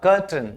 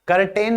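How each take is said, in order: First: The second syllable has a reduced 'tun' vowel. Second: The second syllable has a full 'ten' vowel. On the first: The speaker calls it right. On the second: The speaker calls it wrong.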